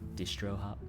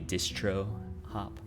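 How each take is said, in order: First: The T in distro is pronounced softly. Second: The T in distro is pronounced very hard.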